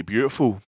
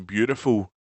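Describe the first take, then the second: First: "beautiful" said the Scottish way; "beautiful" in a homely Scottish accent; Scots accent. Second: "beautiful" said the American way; "beautiful" in a light American accent. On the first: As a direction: say "beautiful" as to a Scots family at home. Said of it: "If she was talking to her family". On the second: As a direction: say "beautiful" as speakers in the States would. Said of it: "this is how speakers in the States would say it". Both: Shown as a demonstration.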